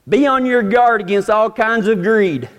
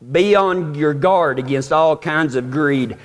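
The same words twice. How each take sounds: First: It is read quickly. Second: It is read more slowly.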